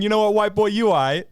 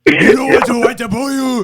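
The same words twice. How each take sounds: First: A touch higher, lightly voiced Miyamoto; mock Miyamoto. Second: Much higher and louder hammed-up impression; exaggerated shouted Miyamoto bit; loud mock Miyamoto. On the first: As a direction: toss off a mild Miyamoto impression. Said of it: "I love the thought of Miyamoto going". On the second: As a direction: blast the quote out over the top. Hamming up the Miyamoto quote.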